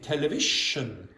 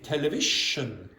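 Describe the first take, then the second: First: The middle consonant is replaced by another sound. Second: The same.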